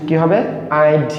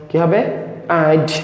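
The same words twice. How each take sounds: The two takes are said the same way.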